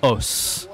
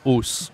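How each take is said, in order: First: Os with an open 'aw' vowel; correct open O. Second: Os with a closed 'oh' vowel; wrong closed O. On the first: Teacher correcting to the French form, os with open O. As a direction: say os as 'awss', lax open O. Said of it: "on dit". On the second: Teacher showing learners what not to say, os with closed O. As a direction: say os as 'ohss', long tight O. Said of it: "On dit pas os". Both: Shown as a demonstration.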